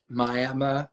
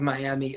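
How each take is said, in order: First: It is said the way local people say it. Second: It is said the standard way it is spelled. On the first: This is how the town's residents say the name. "they pronounce it" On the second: This is the usual pronunciation of the spelled name. "but it's actually"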